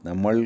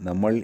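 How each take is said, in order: The two takes are said the same way.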